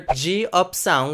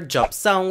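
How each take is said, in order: First: It is said as three distinct syllables. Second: It is squeezed into about two syllables. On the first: "which would be distinctly three syllables" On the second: "which would be basically two syllables"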